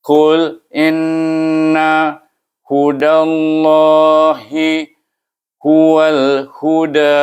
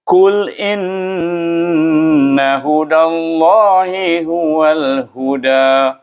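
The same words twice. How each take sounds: First: Very slow, higher, each syllable separated; halting, separated syllables. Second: Slow, higher, flowing melodic chant; flowing Quranic chant; fluent mengaji recitation. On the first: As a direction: spell out Qul inna hudallahi huwal huda by syllables. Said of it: "kita bersebut suku kata, mengikut suku kata". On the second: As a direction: recite Qul inna hudallahi huwal huda smoothly as in mengaji. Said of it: "baca dengan lancar sebagai orang baca mengaji". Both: Shown as a demonstration.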